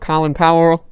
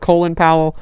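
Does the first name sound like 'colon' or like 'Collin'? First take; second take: Collin; colon. First: The first name is said in the usual way. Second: The first name is said like the word colon.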